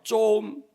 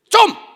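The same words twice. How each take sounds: First: It is said in a pleading, asking tone. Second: It is said in a sharp, scolding tone. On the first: The speaker is asking to be given something. "달라는 말이죠" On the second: The speaker is refusing and saying stop the nonsense. "안 돼, 이 말이죠"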